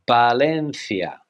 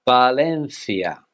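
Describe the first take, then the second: No difference in how they are said.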